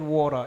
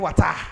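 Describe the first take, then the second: First: It is said in an American accent. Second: It is said in a Sierra Leonean accent.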